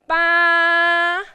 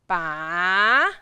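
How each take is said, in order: First: It is said with the first tone. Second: It is said with the third tone. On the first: "now tone number one" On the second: "And tone number three"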